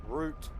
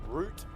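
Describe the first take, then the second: No difference in how they are said.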